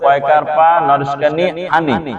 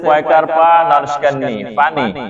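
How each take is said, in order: First: The last word begins with an h sound. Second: The last word begins with a p sound. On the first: The speaker calls it wrong. "ছাত্র পড়তেছে" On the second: The speaker calls it right. "স্যারে পড়াইতেছে"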